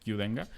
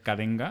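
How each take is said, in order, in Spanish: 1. El inicio se dice como la letra Q. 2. El inicio no se dice como la letra Q. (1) "intuitivamente sería como Qdenga" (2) "creo que se pronuncia Cadenga"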